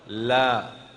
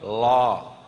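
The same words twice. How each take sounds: First: The tongue tip stays forward near the teeth. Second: The tongue tip reaches back to the palate. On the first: The speaker calls it right. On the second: The speaker calls it wrong.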